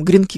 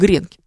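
First: The stress is on the last syllable. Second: The stress is on the first syllable. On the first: "Неудобно нам гренки говорить" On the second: "Мы хотим гренки"

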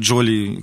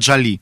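First: The name is pronounced in a Russian way. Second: The name is pronounced in an American way. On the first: "У нас это и «Джоли»" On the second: "если вот именно в американском произношении, именно «Джоли»"

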